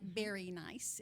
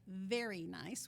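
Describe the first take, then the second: First: The word 'very' begins with a B sound. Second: The word 'very' begins with a V sound. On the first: "You say B like very nice" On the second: "instead of V like very nice"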